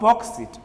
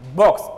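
First: The ending is an extra 'id' syllable. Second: The ending is a single 't' sound. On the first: The speaker calls it wrong. "not boxed it" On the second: The speaker calls it right. "It should be pronounced as boxed"

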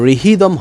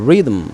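First: The word is said with an h sound. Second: The word is said with no h sound. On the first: The speaker calls it wrong. "কিন্তু রিহিদম হবে না" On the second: The speaker calls it right.

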